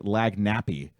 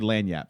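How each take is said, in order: First: The word ends in a vowel sound. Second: The word ends in a consonant sound. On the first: The speaker is an outsider. The speaker calls it wrong. "most people say lagnappy, and that's when we know you're not from there" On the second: The speaker is a local. The speaker calls it right. "if you say it correct"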